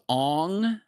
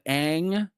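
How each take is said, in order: First: The vowel sounds like the o in long. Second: The vowel sounds like the a in cat. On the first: This is how the film pronounced the name. "it was Ong. I don't know why that was a good idea" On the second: This is the name's original pronunciation. "instead of Ang"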